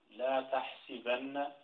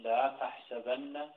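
First: Slow tahsibanna with i on sin; kasra on sin in تحسبن. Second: Slow tahsabanna with a on sin; fatha on sin in تحسبن. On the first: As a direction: spell out the i vowel in تحسبن slowly. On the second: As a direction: spell out the a vowel in تحسبن slowly. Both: Shown as a demonstration. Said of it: "ولم يقل".

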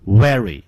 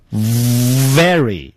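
First: "very" said as "wery"; wrong w. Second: "very" opened with a long buzzing v; drawn-out demonstration "vvvery"; correct v. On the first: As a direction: round the lips to start "very" with w. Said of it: "而不要念成". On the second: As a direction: stretch the v of "very", teeth on lip. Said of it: "要念成". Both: Shown as a demonstration.

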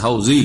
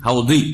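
First: হাউজি with a Bengali z, the way Bengalis say it; Bengali j sound. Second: হাউদি with a heavy Arabic d, not a z; Arabic dad sound. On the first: Teacher shows students the Bengali z in হাউজি. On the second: Teacher shows students the Arabic dad in হাউদি. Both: Shown as a demonstration. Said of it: "আরবি তো দদ".

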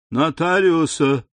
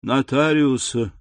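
First: Put-on feverish old lady, higher and louder; louder insistent cry. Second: Put-on feverish old lady calling for the notary, slow; old woman calling out. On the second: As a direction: call out Нотариуса slowly, drawn out. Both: A narrator's reading. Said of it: "повторяя".

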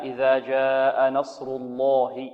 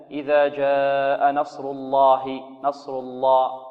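First: الله with a thick, full heavy lam, recited slowly. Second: الله with a thin, weak lam; weak heavy lam. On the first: Teacher showing the proper heavy lam. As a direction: give الله its full weight. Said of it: "لا". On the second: Teacher imitating students who say the lam too weakly. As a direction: mimic a half-heavy lam. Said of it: "هل هذا تفخيم هذا جيد". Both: Shown as a demonstration.

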